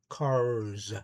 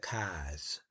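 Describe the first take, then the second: First: The final R sound is clearly pronounced. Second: The final R sound is dropped. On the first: "There you have your Cars with the R at the end" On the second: "That's that's how I've always said them"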